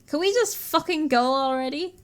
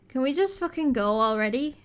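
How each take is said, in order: First: It is said in a more aggressive tone. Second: It is said in a milder, less aggressive tone.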